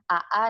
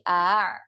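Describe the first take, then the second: First: Two short vowels separated by a glottal stop. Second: One single lengthened vowel without a break. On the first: The speaker calls it wrong. "bukan A A" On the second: The speaker calls it right. "tapi A. Agak panjang"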